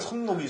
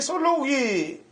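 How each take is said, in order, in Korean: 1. 첫 음절은 n 소리로 끝납니다. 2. 첫 음절은 l 소리로 끝납니다. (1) "원래 선록이" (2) "우린 발음을 썰록이라고 그러잖아요"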